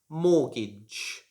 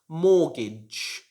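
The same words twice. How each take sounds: The two takes are said the same way.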